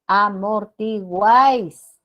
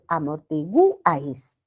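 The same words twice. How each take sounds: First: The stress falls on the final syllable guáis. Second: The stress falls on the u of gu. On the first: The speaker calls it right. "La sílaba tónica es guáis" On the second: The speaker calls it wrong. "tendríamos que colocarle la tilde sobre la U"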